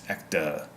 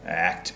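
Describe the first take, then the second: First: An extra vowel is added after the final consonant. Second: The word ends on its final consonant.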